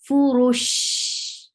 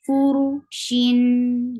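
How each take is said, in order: First: The word ends on a flowing 'sh' sound. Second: The word ends with a nasal 'n' sound. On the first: The reciter stops at this word. "You will give sukoon at the end" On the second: The recitation continues without stopping. "give tawassut because you are pronouncing tanween"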